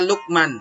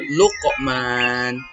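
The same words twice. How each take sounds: First: The q sound is a plain, unreleased stop. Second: The q sound is released with a bounce. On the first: The speaker calls it wrong. "Tidak boleh kita baca Luqman" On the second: The speaker calls it right. "yang betul Luqman"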